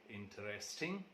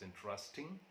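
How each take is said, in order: First: The unstressed vowel is pronounced in full. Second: The unstressed vowel is left out.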